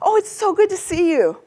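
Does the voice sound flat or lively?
lively. It is lively, with big pitch changes. The speaker is really happy. "That's quite an exaggerated pitch change to sound really happy"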